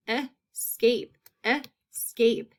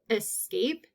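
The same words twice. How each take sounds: First: Escape in two separate beats; split into syllables. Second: Said in the usual way. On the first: Shown as a demonstration. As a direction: pause between es and cape in escape. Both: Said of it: "long A in that second syllable".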